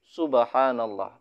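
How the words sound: It is said in a pleasant, melodious tone. It is said as remembrance and as a notice. The speaker calls it right. "notasi nadanya itu enak didengar"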